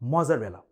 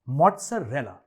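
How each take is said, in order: First: The double z is a plain z sound. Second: The double z is split into t plus z. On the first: The speaker calls it wrong. "Not मोज़रेला" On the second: The speaker calls it right. "M O जेड जेड को ब्रेक करेंगे मॉट और जा में, और रेला को दोनों एल खींचेंगे"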